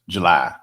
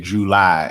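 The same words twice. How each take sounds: First: The two syllables are run together smoothly. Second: The two syllables are said distinctly apart. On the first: This is the California way of saying it. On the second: This is the Mississippi way of saying it.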